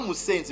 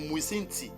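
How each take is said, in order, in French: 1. Le mot se prononce avec une fin en d, Moussendi. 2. Le mot se prononce avec une fin en t, Moussinti. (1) "C'est pas Moussendi" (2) "mais c'est Moussinti"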